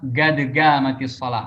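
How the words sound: The first word begins with a hard g sound.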